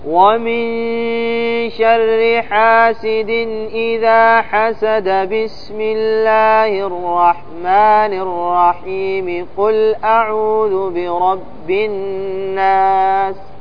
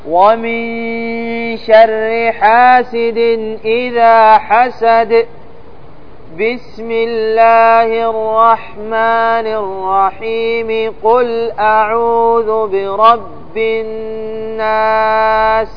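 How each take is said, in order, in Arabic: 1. يقرأ متصلاً من غير وقوف. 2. يقف بعد انتهاء السورة ثم يكمل. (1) "هذا يسمى وصل الجميع" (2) "الوجه الثالث قال الوقف على الأول"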